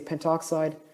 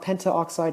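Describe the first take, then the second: First: The a before oxide is dropped. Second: The a before oxide is kept and said. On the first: The speaker calls it right. "we say pentoxide" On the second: The speaker calls it wrong. "Not pentaoxide"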